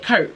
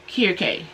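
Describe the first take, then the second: First: It is read the way English spelling suggests. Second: It is said the way the brand pronounces it. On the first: The speaker calls it wrong. "the average person would call that Kirk" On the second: The speaker calls it right. "That's how you say it"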